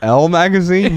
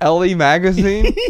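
First: The name is said with one syllable. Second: The name is said with two syllables. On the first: The speaker calls it right. "Oh, L Magazine? Yeah, I've heard of it" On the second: The speaker calls it wrong. "maybe I'm pronouncing it wrong"

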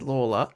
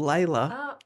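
First: The first syllable sounds like 'law'. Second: The first syllable sounds like 'lay'. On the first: This is how it was originally said. The speaker calls it right. "I read that you say it, that they said Lawler" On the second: This is how the suburb is said today. The speaker calls it wrong. "the suburb that we call Layla ... even though they now say it wrong"

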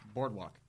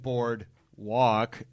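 First: It is said smoothly as one word. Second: It is split into two separate words. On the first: The speaker calls it right. "Just boardwalk. It's one word" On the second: The speaker calls it wrong. "You said board walk"

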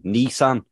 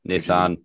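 First: The first syllable sounds like 'knee'. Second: The first syllable sounds like 'niss'. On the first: The speaker calls it wrong. "they were going Nissan. Where's the N-E? ... Not knee" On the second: The speaker calls it right. "It's N-I. Niss"

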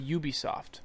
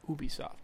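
First: The name is said with an English pronunciation. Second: The name is said with a French pronunciation. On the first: "A native English speaker... You say Ubisoft" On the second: "When speaking with a native French speaker, they'll say Ubisoft"

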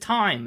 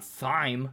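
First: The word begins with a plain t sound. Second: The word begins with a th sound. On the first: The speaker calls it right. "but it's thyme" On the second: The speaker calls it wrong. "It's not thyme"

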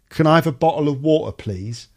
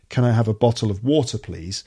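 First: It is said in a colloquial accent. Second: It is said in a standard accent.

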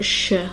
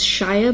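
First: The suffix is reduced to a short 'shuh'. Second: The suffix is said fully, like 'shire'. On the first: The speaker calls it right. "I pronounce it more like S-H-U-H" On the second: The speaker calls it wrong. "I'm not pronouncing it as shire"

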